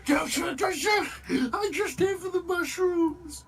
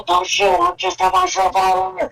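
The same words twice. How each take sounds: First: High, loud crying yell; panicked surrender shout. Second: Panicked surrender shout. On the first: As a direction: beg for your life at full voice. Mock surrender, same plea. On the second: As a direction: yell it with hands up in the air. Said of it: "he's going to yell". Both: Acted.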